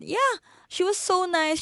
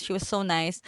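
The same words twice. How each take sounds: First: Much higher, gushing repeat of so nice; high-pitched gushing echo. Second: Said in the usual way. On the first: Shown as a demonstration.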